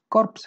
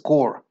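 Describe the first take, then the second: First: The final p and s sounds are pronounced. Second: The final p and s sounds are silent. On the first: The speaker calls it wrong. "este no es corpse" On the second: The speaker calls it right. "este es core"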